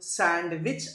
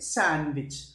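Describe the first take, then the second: First: The d sound is pronounced. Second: The d sound is silent. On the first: The speaker calls it wrong. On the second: The speaker calls it right.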